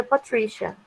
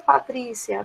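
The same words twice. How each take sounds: First: "Patricia" said the English way, with a SH sound; English pronunciation. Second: Said in the usual way. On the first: Shown as a demonstration. Teacher showing learners "Patricia" in English, pronounced puh-TRISH-uh. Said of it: "você pronuncia Patricia". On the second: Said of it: "É sem o acento".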